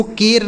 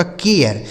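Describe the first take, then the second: First: केर with one long "ay" before the r; wrong pronunciation. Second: केयर with a glide, "kay-yer"; correct pronunciation. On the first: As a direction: say केर as "kayr", like cake. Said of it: "अब इसको केर नहीं पढ़ेंगे". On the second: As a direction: say केयर as "ke-ar", vowel gliding into r. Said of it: "यह लिखा गया आपका". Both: Shown as a demonstration.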